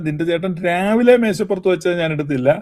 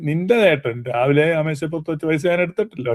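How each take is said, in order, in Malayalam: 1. ഊന്നൽ 'in the morning' എന്നതിലാണ്. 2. ഊന്നൽ 'your brother' എന്നതിലാണ്. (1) "രാവിലെ എന്നുള്ളതിന് ഊന്നൽ കൊടുത്താൽ" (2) "ഊന്നൽ നിന്റെ ചേട്ടന് കൊടുക്കുകയാണെങ്കിൽ"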